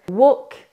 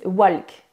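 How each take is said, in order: First: Walk with a silent L; correct walk. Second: Walk with the L sounded; French mispronunciation. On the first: Shown as a demonstration. English coach models the word for French learners, correct pronunciation. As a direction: say walk as one long vowel, no L heard. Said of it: "au lieu de dire". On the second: Retold or imitated. Coach imitates French learners' mistake, mispronounced walk. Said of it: "les gens disent".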